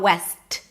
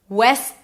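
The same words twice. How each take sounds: First: The final T is fully released. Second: The S stops abruptly with no released T. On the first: The speaker calls it wrong. "It's not west" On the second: The speaker calls it right. "I don't really pronounce the T"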